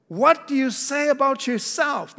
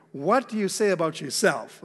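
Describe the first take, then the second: First: Much higher, louder pressing question; the priests demanding an answer, much higher. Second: Said in the usual way. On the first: Acted. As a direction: push the question at him, high and loud. Priests question John the Baptist. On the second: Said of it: "That's a good question".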